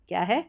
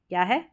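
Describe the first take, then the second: No difference in how they are said.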